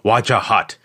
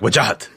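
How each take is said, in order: First: It is broken into separate syllables, American style. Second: It is said quickly and sharply, Pakistani style.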